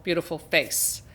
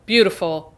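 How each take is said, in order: First: "beautiful" said much softer, tenderly fading; softer repeat. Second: Said in the usual way. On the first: Shown as a demonstration. Host admiring Laura's face in the freeze frame, softly. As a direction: let "beautiful" fall away softly. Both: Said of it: "repeated word, second softer".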